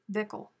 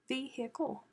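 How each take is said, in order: First: The word is said without an H sound. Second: The word is said with an H sound. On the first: "That doesn't even sound right" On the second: "I say the H"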